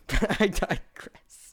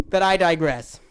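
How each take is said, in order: First: Slow, soft laughing "I digress"; slow laughing "digress", softer than plain talk; chuckling aside. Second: Said in the usual way. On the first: Real, not acted. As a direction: let it slip out through a soft laugh, slowly.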